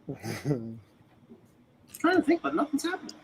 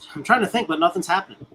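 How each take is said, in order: First: It is said in an imitated character voice. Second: It is said in a natural, ordinary voice.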